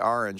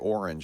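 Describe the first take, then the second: First: It has the speaker's Rhode Island pronunciation. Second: It has the common Californian pronunciation. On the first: This is how the speaker naturally says it. "I say orange" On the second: This is how everyone else says it. "I don't say orange"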